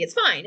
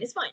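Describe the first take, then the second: First: Sarcastic "It's fine." with a flat falling end. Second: Sarcastic "It's fine." with a light rising end. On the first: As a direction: drop the voice on "fine" like it's settled. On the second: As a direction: lift "fine" lightly as if shrugging it off. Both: Acted. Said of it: "we are being very sarcastic right now".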